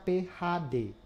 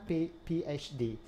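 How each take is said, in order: First: The letters are read with Indonesian letter names. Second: The letters are read with English letter names. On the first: The title is read the local way. The speaker calls it right. "Itu harus dibaca P H D" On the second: The title is read the original foreign way. The speaker calls it wrong. "bukan P PhD"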